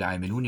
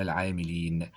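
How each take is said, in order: First: عاملون ending in a long -ūn; wrong case ending. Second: العاملين ending in a long -īn; correct case ending. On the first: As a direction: say عاملون with an oo sound before the final n. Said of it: "يبقى إذن هنا خطأ". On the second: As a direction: say العاملين with an ee sound before the final n. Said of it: "الصحيح أن نقول". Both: Shown as a demonstration.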